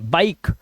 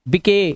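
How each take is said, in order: First: The final e is silent. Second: The final e is sounded as a vowel. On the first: The speaker calls it right. "Last का ई silent है" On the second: The speaker calls it wrong. "बिके गलत है"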